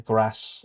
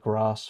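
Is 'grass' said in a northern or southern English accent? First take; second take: northern; southern. First: It is said with a northern English accent. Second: It is said with a southern English accent. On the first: This is how the speaker normally says it. "I've kind of adopted the northern neutral accent, so I say grass" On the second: This is how the speaker does not say it. "instead of grass"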